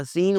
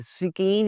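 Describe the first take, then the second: First: सीन with no k; one syllable for सीन; silent C. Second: सिकीन with the k sounded; high-pitched सिकीन with a hard k; mispronounced C. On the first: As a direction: say सीन as seen. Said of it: "सी silent है". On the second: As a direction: say सिकीन as si-keen. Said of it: "सिकीन नहीं होता". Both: Shown as a demonstration.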